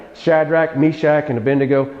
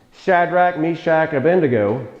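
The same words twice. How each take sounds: Both takes have the same delivery.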